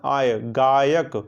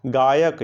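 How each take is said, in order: First: "आय, गायक" spelled out very slowly, stretching आय inside गायक; slow pronunciation. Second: Said in the usual way. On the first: Shown as a demonstration. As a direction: say "आय" then "गायक" very slowly so the आय sound is heard. ("गायक" को धीरे-धीरे, आय पर ज़ोर देकर बोलना) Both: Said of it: "आप इसका उच्चारण करिए".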